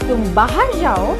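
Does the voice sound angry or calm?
calm. It is said calmly, without anger. You may go out. "it doesn't give a sense of anger"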